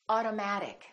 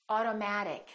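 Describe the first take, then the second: Both takes have the same delivery.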